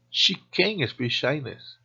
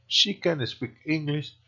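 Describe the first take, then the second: First: Slow phrase with CAN'T drawn out and accented, T dropped; stress on CAN'T. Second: CAN kept short inside an even phrase; unstressed CAN. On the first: Teacher gives negative examples to learners, stress on CAN'T. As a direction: lean hard on CAN, meaning the negative CAN'T. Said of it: "La negativa es can't". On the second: Teacher gives conjugation examples to learners, no stress on CAN. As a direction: run lightly through CAN without accenting it. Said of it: "sin acentuar can especialmente". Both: Shown as a demonstration.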